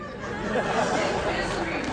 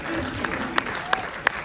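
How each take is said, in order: First: Drawn out slow and loud; hammed-up misery; mock dramatic misery. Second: Slow, much higher and louder; mock anguished wail. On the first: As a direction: savour the word like a tragedy. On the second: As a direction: wail it like a tragic heroine. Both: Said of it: "You have to find what works for you".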